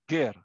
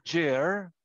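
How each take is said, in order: First: It begins with a hard throaty G sound. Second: It begins with a soft J sound. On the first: The speaker calls it right. "You pronounce it with a guttering sound at the throat" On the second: The speaker calls it wrong. "Hindi siya Ger, hindi siya yung general"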